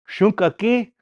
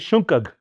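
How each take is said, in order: First: The word ends with a full final syllable. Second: The word is cut short without its final vowel. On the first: This is the older, longer form. "It's like saying ampetuki" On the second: This is the local slang form. "They'll shorten and just say shunkag"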